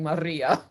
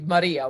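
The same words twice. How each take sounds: First: The r sound is held long, doubled. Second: The r sound is short and single. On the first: The speaker calls it wrong. "you kept singing" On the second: The speaker calls it right. "it's really Maria with one R"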